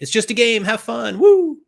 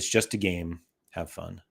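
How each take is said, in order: First: It is said in an excited, enthusiastic tone. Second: It is read in a flat, plain tone.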